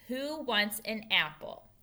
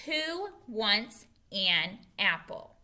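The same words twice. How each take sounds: First: Said in the usual way. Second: Slow, separated words. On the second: Shown as a demonstration. Teacher models a new question for pupils, word by word. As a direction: say each word on its own, slowly.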